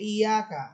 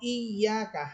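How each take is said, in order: First: The y sound is short and not held. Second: The y sound is held long and firm. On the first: The speaker calls it wrong. "স্বাভাবিকভাবে বলেন যে ইয়াকা" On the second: The speaker calls it right. "হামসা ইয়াকে শক্ত করে ধরবে"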